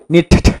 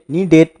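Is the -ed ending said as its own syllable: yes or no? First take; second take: no; yes. First: The ending is not a separate syllable. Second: The ending is an extra syllable, need-id. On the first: The speaker calls it wrong. "bukan needed" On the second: The speaker calls it right. "Jadi dibaca needed"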